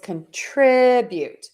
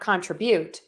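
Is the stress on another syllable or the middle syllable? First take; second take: middle; another. First: The stress is on the middle syllable. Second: The stress is not on the middle syllable. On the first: The speaker calls it right. "Be sure to stress that middle syllable" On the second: The speaker calls it wrong. "It's not contribute"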